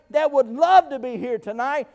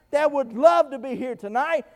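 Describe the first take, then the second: No difference in how they are said.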